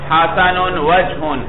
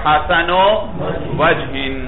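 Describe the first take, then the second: First: The word wajh ends with a u vowel and n. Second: The word wajh ends with an i vowel and n. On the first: The noun is in the nominative case. "رفع ہوگا" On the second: The noun is in the genitive case. "جر"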